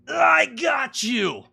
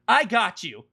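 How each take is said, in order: First: The voice sounds tight and strained with effort. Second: The voice sounds easy and relaxed, without strain. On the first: The character is physically exerting herself while speaking. The speaker calls it wrong. "so it doesn't sound like" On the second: The character is not doing anything physical while speaking. The speaker calls it right.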